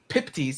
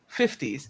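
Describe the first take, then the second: First: The word begins with a p sound. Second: The word begins with an f sound. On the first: "pronounce them as P's" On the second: "instead of fifties"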